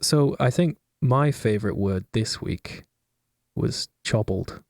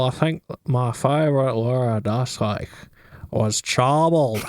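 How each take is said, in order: First: It is said in the speaker's own accent. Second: It is said in a Northern Irish accent.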